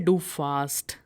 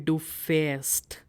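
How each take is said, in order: First: The verb has a plain open 'a' vowel. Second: The verb has an umlaut 'ä' vowel. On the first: The speaker calls it wrong. "don't say" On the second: The speaker calls it right. "It will be"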